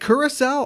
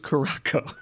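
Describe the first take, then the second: First: The word is said as cura-sow. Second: The word is said as cara-co. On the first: The speaker calls it right. "Is it curacao?" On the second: The speaker calls it wrong. "I always thought it was Caraco. I've been saying it wrong my entire life"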